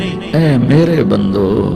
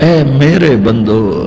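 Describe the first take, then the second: The two takes are said the same way.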